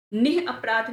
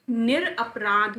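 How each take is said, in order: First: निः अपराध split, with h and no r; wrong pronunciation. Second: निरपराध slowly, with r joining nir to aprādh; correct pronunciation. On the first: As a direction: say निः अपराध as nih-aprādh. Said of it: "निः अपराध नहीं होता है". (निः अपराध में र की जगह विसर्ग) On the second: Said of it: "निरपराध होता है". (निरपराध धीरे, 'निर' का र साफ़) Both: Shown as a demonstration.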